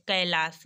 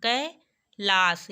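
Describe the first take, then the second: First: Said in the usual way. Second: कैलाश very slow, "kai - laash"; teacher sounding out कैलाश; drawn-out syllables. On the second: Shown as a demonstration. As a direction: split कैलाश and hold each syllable. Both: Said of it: "ए की मात्रा आया ना".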